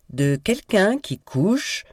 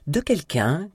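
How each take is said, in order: First: High, slow, deliberate accusation; insistent revelation. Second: High-pitched, suspended opening; starting a revelation. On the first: Kit presses on despite his sister's protest, slow insistent accusation. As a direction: draw it out over the interruption. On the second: Kit starts exposing his sister's affair, suspended revelation. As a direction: begin an accusation, left hanging. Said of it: "commença Kit". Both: A narrator's reading.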